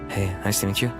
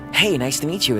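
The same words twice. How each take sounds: First: It is said in a plain, conversational way. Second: It is said in a heightened, theatrical way. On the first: It sounds like real-life, on-screen acting. "is more, ... Like that" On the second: It is the standard voiced-character delivery. "instead of"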